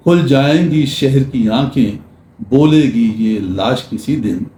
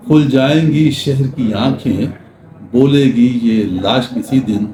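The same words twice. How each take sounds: The two takes are said the same way.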